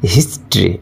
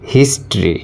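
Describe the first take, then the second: First: The word has two syllables, with the middle vowel dropped. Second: The same.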